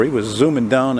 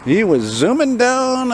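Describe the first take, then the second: First: Said in the usual way. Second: Slow, high swoop on "zooming down"; playful, high-pitched, elongated "zooming down"; drawn-out zooming. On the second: Pretend. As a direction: stretch "down" long and high. Repeated drawn out, imitating the zooming.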